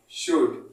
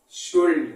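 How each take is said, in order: First: शुड said short, no L sound; the proper way, शुड with a silent L; शुड, the L left out; correct pronunciation should. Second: शुल्ड said with a clear L, shuld; the mistaken village way, शुल्ड with the L sounded; शुल्ड pronounced wrongly with an L; wrong pronunciation shuld. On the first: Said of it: "original जो pronounce है". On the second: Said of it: "but ये आपका wrong है". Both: Shown as a demonstration.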